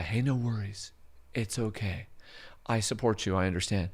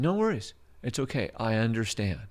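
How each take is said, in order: First: Softer, gentle "no worries"; calm her down softly; soothing. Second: Said in the usual way. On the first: Retold or imitated. Comforting the crying tenant, softly. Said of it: "we're doing this surrender and comply". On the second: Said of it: "surrender and comply".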